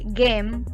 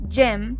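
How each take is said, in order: First: The word begins with a hard G sound. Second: The word begins with a J sound. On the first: The speaker calls it wrong. "no vamos a decir" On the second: The speaker calls it right. "vamos a decir"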